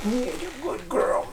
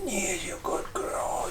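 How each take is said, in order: First: High, soft cooing to the dog; sweet pet praise, lifted and hushed. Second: Breathless whisper to the dog; soft secret praise for the pup. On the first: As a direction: coo it up high like praising a puppy. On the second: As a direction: whisper it close into the dog's ear. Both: Real, not acted. Cooing to her dog Huck.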